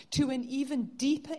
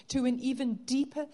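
No difference in how they are said.

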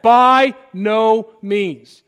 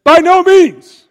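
First: "By no means" said very slowly, each word leaned on with force; slow, heavy, louder stress on every word of "By no means"; drawn-out emphatic. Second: High, loud, slow cry of refusal; a forceful high-pitched "By no means"; emphatic shout. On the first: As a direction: stretch "By" and "no" out for weight. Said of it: "it's emphatic". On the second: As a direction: shout it down as Paul would. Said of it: "Paul very emphatically says". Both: Retold or imitated.

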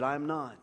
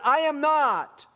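First: Said in the usual way. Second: Loud, high, drawn-out denial; acted indignant outburst, slow and high; emphatic denial. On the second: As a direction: deny it loudly, stretching each word. Peter's repeated denial, escalated.

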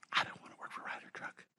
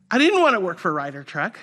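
First: Whispered under the breath; hushed private confession; secret inner thought. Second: Said in the usual way. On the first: Retold or imitated. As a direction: whisper it like a thought you can't say aloud. Inner thought during job interview.

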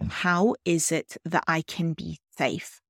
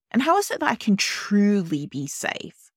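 First: Said in the usual way. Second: Truly lifted and leaned on, higher; stress on truly. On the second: Shown as a demonstration. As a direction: hit the word truly hard, make it count. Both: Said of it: "I'm really emphasizing the word truly".

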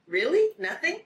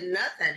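First: High, rising incredulous question; REALLY and NOTHING both pitched high as questions; retelling a startled double-check; retold disbelief. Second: Said in the usual way. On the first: Retells her disbelieving question to him.

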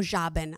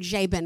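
First: Jabin said with an open AH, "JAH-bin"; first vowel of Jabin as in "father". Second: Jabin said with a long AY, "JAY-bin"; first vowel of Jabin as in "day". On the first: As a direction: say Jabin with first syllable like "jar", no R. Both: Shown as a demonstration. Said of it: "theological proper way to say it".

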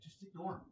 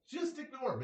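First: Said in the usual way. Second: Much higher, stress on Just; emphatic advice. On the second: Real, not acted. Telling viewers to ignore people, emphatically. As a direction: push Just hard, pitch jumping up.

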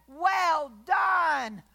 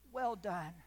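First: Louder, higher shouted well done; triumphant shout. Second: Softer, lower "well done" barely voiced; hushed well done. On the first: Acted. God praising the faithful servant, triumphant shout. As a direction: proclaim "Well done" as a loud cry. Eyes and say. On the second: Believer hearing God's praise, hushed awe. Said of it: "I'm gonna be so tuned in".

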